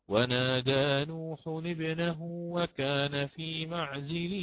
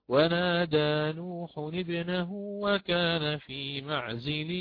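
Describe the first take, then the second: The two takes are said the same way.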